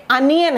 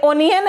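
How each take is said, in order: First: अनियन starting with a short 'uh' vowel; correct pronunciation. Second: ओनियन starting with a long 'o'; wrong pronunciation. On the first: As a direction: say अनियन as 'un-yun'. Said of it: "ये अनियन है". (अनियन को छोटे 'अ' से शुरू करें) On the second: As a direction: say ओनियन as 'oh-nian'. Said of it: "नहीं, ये अनियन है". (ओनियन को 'ओ' से शुरू करें) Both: Shown as a demonstration.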